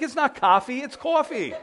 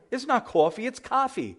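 First: High, insistent New Yorker correcting "cahfee" to "cawfee"; mock-indignant New York comeback, pitched up; New York accent. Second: High-pitched Californian correcting New York "cawfee" to open "cahfee"; mock West Coast accent, vowel opened on the last coffee; Californian correction. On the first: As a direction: argue back in New York accent, rounded last vowel. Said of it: "but our accent". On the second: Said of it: "when I go out to the West Coast".

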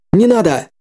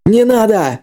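First: Shout. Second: Sharp warning cry, higher; sudden shout. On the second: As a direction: yell it out to stop him. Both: Acted. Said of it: "внезапно крикнул ему".

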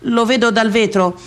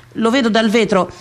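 Both takes have the same delivery.

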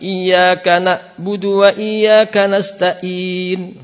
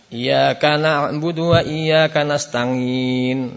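First: Slow, high chanted nasta'in with a glottal stop; wrong hamzah in nasta'in; hamzah instead of ain. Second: Slow nasta'in with a ng sound; wrong ng in nasta'in; nga instead of ain. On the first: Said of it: "Atau dibaca dengan hamzah". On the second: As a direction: let nasta'in slide into nga. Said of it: "Dibaca dengan". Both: Shown as a demonstration.

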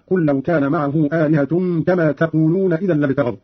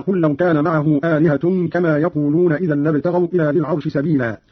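First: "تقولون" begun with ta, "taqulun"; read with ta. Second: Said in the usual way. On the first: Shown as a demonstration. Teacher demonstrates Qalun's reading, "تقولون" with initial ta. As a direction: sound a clear ta opening "تقولون". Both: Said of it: "قرأ قالون بالتاء".

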